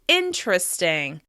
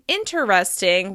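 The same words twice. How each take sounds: First: The word is said with three syllables. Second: The word is said with four syllables. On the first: "we say interesting... there are only three syllables" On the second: "Instead of saying interesting"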